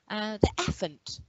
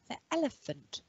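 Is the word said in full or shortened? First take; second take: shortened; full. First: The word is said with a syllable missing. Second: The word is said with every syllable. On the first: A young child is still learning the long word. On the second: This is the adult form of the word.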